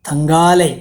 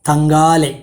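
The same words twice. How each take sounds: Both takes have the same delivery.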